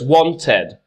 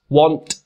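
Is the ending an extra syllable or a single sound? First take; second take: extra syllable; single sound. First: The ending is an extra syllable, id. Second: The ending is a bare t sound, no syllable. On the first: The speaker calls it right. "So it's wanted and hated" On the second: The speaker calls it wrong. "then that word would sound like this"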